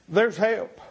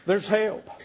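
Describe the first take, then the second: No difference in how they are said.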